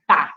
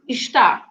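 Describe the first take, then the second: First: Only the final syllable 'tá' is said. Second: The first syllable is pronounced in full. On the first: This is a common shortened form. "sometimes tá" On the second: This full form is rarely heard. "you very rarely listen to está"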